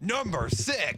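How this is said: It is said with confidence and guts.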